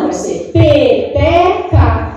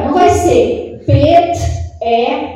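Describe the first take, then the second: First: Peteca said as one smooth word, slowly; smooth whole word. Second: Pet-e-ca broken into three separate beats, slowly; split syllables. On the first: Teacher showing the right way, peteca as one word. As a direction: run peteca together in one flow. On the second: Teacher showing the wrong way, pet-e-ca in separate pieces. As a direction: say pet-e-ca chopped apart, syllable by syllable. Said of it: "Não, vai ser peteca". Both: Shown as a demonstration.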